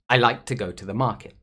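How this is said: Only key words are stressed; 'to' and 'the' are reduced. The speaker calls it right. "when I say this sentence naturally"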